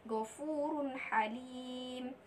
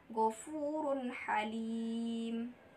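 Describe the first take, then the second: Both takes have the same delivery.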